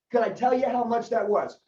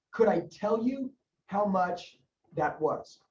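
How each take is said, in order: First: Said in the usual way. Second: Very slow, spaced-out words; measured, with pauses for note-taking; slow dictation. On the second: Shown as a demonstration. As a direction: dictate it word group by word group.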